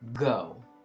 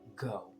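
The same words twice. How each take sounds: First: It is said loudly. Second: It is said quietly.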